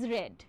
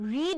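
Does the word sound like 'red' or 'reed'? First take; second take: red; reed. First: The vowel is short, like in 'red'. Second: The vowel is long, like in 'reed'. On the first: It is the past participle form. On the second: It is the base form of the verb.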